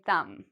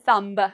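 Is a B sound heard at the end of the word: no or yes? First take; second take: no; yes. First: The final B is silent. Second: A B sound is pronounced at the end. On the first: The speaker calls it right. "we say thumb" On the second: The speaker calls it wrong. "So we don't say thumb. No"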